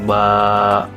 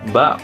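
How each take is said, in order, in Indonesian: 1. Vokalnya dibaca panjang. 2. Vokalnya dibaca sebentar.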